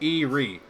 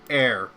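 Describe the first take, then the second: First: The name is said with two syllables. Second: The name is said with one syllable. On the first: The speaker calls it wrong. "for the longest time, I always pronounced it as Erie" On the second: The speaker calls it right. "it's supposed to be pronounced air. Like air"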